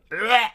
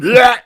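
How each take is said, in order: First: High pained retch; gagging sound. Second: Loud high retching bleh; loud gagging sound. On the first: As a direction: imitate a stifled gag. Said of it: "saw you looking pained and going". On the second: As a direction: belt out a gag noise. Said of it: "but not making the "bleh" sounds". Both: Retold or imitated.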